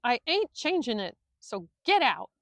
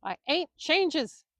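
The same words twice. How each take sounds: First: Loud furious roar; preacher roaring the trainer out the door, loud. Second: Slow, high, loud stumble of rage; preacher roaring at the trainer, slow and loud; roared. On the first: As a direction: throw him out of the house with your voice. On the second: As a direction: bellow it out too furious to get the word right. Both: A narrator's reading. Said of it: "Willie roared".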